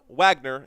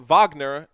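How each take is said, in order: First: The name has a plain English pronunciation. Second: The name has a foreign, non-English pronunciation. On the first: This is how an English speaker reads the spelling. The speaker calls it wrong. "and not Wagner, even though it's spelled Wagner" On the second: This is how its owner says it. The speaker calls it right. "his name is Wa- Wagner"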